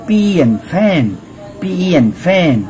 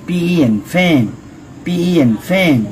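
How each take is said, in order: The two takes are said the same way.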